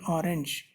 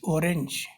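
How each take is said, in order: First: The first vowel sounds like 'ah'. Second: The first vowel sounds like 'oh'. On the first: This is how English speakers say it. "sometimes pronounced as A" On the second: This is how the spelling reads in European pronunciation. "we are not calling this orange"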